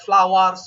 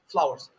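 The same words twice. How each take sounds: First: The W sound is long and heavy. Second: The W sound is brief and light. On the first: The speaker calls it wrong. "if you pronounce that, then the pronunciation kind of goes off" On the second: The speaker calls it right. "we pronounce the W, but like just for a short while"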